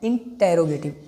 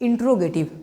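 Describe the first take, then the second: First: It starts 'inter', with an 'er' sound. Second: It starts 'intro', with no 'er' sound. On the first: The speaker calls it right. "You have to just pronounce इंटेरोगेटिव" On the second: The speaker calls it wrong. "I would suggest you do not pronounce this इंट्रोगेटिव"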